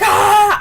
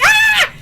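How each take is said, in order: First: Loud mock scream; imitated character's scream. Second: Very high, loud mock shriek; excited fan scream. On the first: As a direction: yell like Adrian in a panic. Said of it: "Adrian's like". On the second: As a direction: squeal at full pitch as the reader. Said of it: "I'm like".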